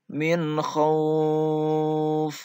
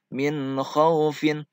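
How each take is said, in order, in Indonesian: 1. Vokal pada khauf dipanjangkan. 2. Vokal pada khauf dibaca pendek. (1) "min khauf dipanjangkan kalau diwakafkan" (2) "Kalau tidak diwakafkan, hukum bacaannya lin, tidak dipanjangkan"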